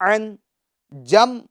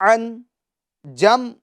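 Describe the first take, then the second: The two takes are said the same way.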